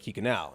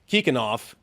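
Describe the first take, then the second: First: The name ends with an ow vowel sound. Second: The name ends with an f-like sound. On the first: The speaker calls it wrong. "even though it looks like Kikhanau" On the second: The speaker calls it right. "the U at the end of all their names is pronounced like a V, or probably more like an F"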